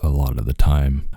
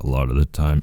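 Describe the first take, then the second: First: The voice is tired, low-energy and mumbly. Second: The voice is clear and normally energetic.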